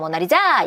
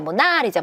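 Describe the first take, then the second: First: The stress is on the fourth syllable. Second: The stress is on the second syllable. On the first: "네 번째야" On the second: "두 번째야"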